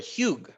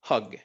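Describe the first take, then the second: First: The vowel is long, like the letter name. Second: The vowel is short, as in hug. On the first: The speaker calls it wrong. "yo no digo" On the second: The speaker calls it right. "Y el último es hug"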